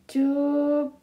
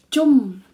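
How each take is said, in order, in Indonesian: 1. Suku kata ini berakhir dengan bunyi p. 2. Suku kata ini berakhir dengan bunyi m. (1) "Apa tulisannya?" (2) "B ketemu N. Itu bacanya adalah M"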